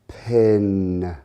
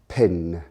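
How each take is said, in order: First: It is said slowly and stretched out. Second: It is said at normal speed.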